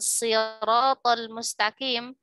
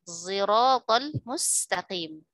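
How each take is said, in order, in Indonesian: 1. Konsonan pertama adalah bunyi S biasa. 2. Konsonan pertama adalah S yang digabung dengan Z. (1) "Mereka tidak membaca dengan sirotol mustaqim" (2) "gabungan Sod dengan Zai"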